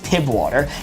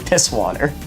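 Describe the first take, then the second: First: The first word ends in a b sound. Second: The first word ends in an s sound. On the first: The speaker calls it wrong. "People pronounce it as Pib water. That's not what it is" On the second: The speaker calls it right. "so it's actually piss water"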